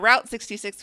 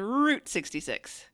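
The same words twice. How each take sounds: First: The vowel sounds like the one in out. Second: The vowel sounds like the one in boot. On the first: The speaker calls it wrong. "We don't say Route 66" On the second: The speaker calls it right. "we say Route 66"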